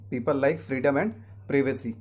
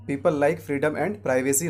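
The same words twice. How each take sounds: First: Slow sentence, privacy as "PRIV-uh-see"; short first vowel in privacy; correct pronunciation. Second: Slow sentence, privacy as "PRY-vuh-see"; wrong pronunciation. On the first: Teacher corrects the example, privacy starting "priv". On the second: Teacher shows what to avoid, privacy starting "pry". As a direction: say privacy with a long i. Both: Shown as a demonstration. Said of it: "नहीं".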